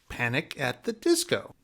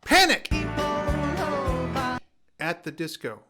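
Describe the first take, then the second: First: Panic is said in a flat, ordinary voice. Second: Panic is exclaimed loudly and forcefully. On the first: The speaker calls it wrong. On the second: The speaker calls it right.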